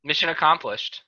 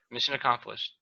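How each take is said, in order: First: Said in the usual way. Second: Softer muttered repeat; quiet echo. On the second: Shown as a demonstration. Host repeating the closing line to himself, softly. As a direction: say it again under your breath.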